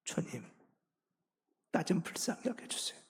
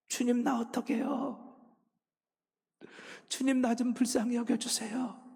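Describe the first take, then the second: First: Soft, unvoiced plea for mercy; hushed, weeping whisper of prayer. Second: Higher, pleading cry of prayer; desperate prayer, pitched up and pleading; crying out to God. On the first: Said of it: "통곡하며 우는 거예요". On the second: Retold or imitated. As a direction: cry out for mercy, voice lifted. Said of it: "눈물이 터져 나오기 시작해요".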